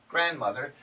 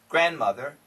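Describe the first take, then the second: First: The D sound in the middle is dropped. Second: The same.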